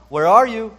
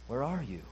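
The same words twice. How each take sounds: First: It is said as a plain, neutral question. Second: It is said sorrowfully with a sob. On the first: The speaker is simply asking for information. "as though God were simply just asking a question" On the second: The speaker grieves with compassion for the one addressed. "with pathos, with a sob in his throat"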